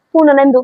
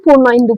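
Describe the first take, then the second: First: পূর্ণনেন্দু said as one joined word; joined right way. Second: পূর্ণ ইন্দু said as two separate words with a gap; split wrong way. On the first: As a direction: say পূর্ণনেন্দু in one go, the correct reading. (পূর্ণনেন্দু একসাথে, সঠিক পড়া) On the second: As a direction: read পূর্ণ ইন্দু apart, the way we don't read it. (পূর্ণ ইন্দু আলাদা করে, ভুল পড়া) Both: Shown as a demonstration. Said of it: "পড়ি না".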